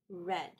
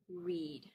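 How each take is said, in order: First: The vowel is short, like red. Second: The vowel is long, like reed. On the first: It is the past form of the verb. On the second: It is the present form of the verb.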